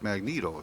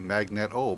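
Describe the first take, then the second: First: It does not sound like magnet plus o. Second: It sounds like the word magnet plus o. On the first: This is how most people say it. "everybody refers to it as Magneto" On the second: This follows the spelling of the word it comes from. "the word magnet, and you put an O on the end, it would be Magneto"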